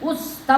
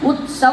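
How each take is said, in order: First: The word is said in an everyday, local way. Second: The word is said in a careful, formal way. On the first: This is how ordinary people say it. "ಉತ್ಸವ ಅಂತೇವೆ ನಾವು" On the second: This is how one is supposed to say it. "ಉತ್ಸವ ಅನ್ಬೇಕು"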